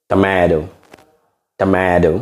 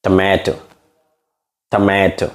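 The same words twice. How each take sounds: First: American Tomato with the T softened to a D; demonstrating American pronunciation; American accent. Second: British tomato with a crisp T in টমেটো; demonstrating British pronunciation; British accent. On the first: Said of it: "In American accent". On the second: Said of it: "British accent লয় নে". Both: Shown as a demonstration.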